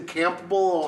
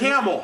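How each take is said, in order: First: The name is said with a clear p sound. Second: The name is said like 'camel', without a p. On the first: An out-of-towner is saying it. The speaker calls it wrong. "people say camel is Campbell" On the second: A local is saying it. The speaker calls it right. "No, it's Camel"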